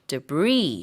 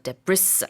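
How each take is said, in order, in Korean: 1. 마지막 s 소리는 묵음이에요. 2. 마지막 s 소리는 발음해요. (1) "이거 S 발음하지 않습니다" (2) "debris 아니고"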